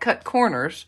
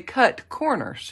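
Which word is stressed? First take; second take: corners; cut. First: The stress falls on the second word. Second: The stress falls on the first word. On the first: Quality is not skimped on. "You see the difference there in the inflection" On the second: The dies literally cut the corners of paper. "You see the difference there in the inflection"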